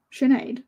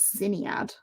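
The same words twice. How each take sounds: First: Sinead said "shin-ayd"; correct Irish pronunciation. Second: Sinead read as it looks, "sin-ee-ad"; spelling pronunciation. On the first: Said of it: "yeah, Sinead". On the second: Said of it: "you'd go with what it looks like". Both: Shown as a demonstration.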